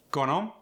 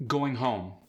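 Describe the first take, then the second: First: "Going home" with rising tune and oo-shaded O; Philadelphia-accented "Going home", both O's fronted; Philly O sound. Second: Said in the usual way. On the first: Shown as a demonstration. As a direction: lift the vowel in "home", Philly style. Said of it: "The vowel moves upward".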